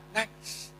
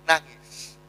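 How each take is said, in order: First: Nangis breathed out as a bare whisper, no voice; whispered weeping word. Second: Said in the usual way. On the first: Acted. Preacher whispers that the Prophet wept, hushed whisper. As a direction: let nangis fall away into a whisper.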